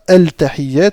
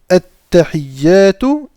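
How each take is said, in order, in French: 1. On entend un son L avant le T. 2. On n'entend pas de L ; le T est doublé. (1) "ici on ne dit pas al-tahiyyat" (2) "on ne le prononce pas, on va directement sur la première lettre et on lui met une shadda"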